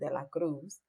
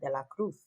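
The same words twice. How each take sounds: First: It is said in a non-Spain accent. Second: It is said in a Spain Spanish accent.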